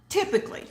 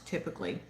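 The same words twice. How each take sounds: First: "Typically" squeaked much higher, breathy; squeaky typically. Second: Said in the usual way. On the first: Shown as a demonstration. Vlogger repeating a word to viewers, squeaky high.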